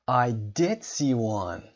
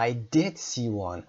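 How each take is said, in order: First: "did" punched, slow; emphatic "did"; stress on did. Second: "did" stressed with a fall; emphatic "did", falling. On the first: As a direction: lean hard on "did" in "I did see one". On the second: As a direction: insist with "did". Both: Shown as a demonstration.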